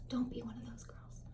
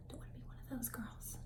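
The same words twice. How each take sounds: First: Soft whispered aside; whispered warning. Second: Whispered aside. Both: Real, not acted. Warning about mismatched neck.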